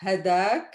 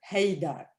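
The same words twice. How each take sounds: First: Hadak opening on short "ha", rising at the end; plain HA pronunciation. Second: Haydak opening on "hay", falling at the end; HAY pronunciation. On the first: Teacher contrasting two close variants for learners, short-A pronunciation. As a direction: say hadak with no glide in "ha". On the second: Teacher contrasting two close variants for learners, AY-glide pronunciation. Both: Shown as a demonstration. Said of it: "the difference is we barely hear it".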